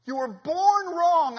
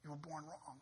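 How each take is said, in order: First: Loud, high and very slow, leaning on born; slow preached cry. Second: Much softer, plain pitch, falling on born; quiet verdict. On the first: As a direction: drag each word out like a verdict. Preaching climax, slowed. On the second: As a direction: drop it to a hush after the shouting. Quiet repeat after shout. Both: Acted.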